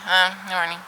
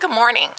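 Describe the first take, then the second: First: It is said in a dry, unfriendly tone. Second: It is said in a warm, friendly tone.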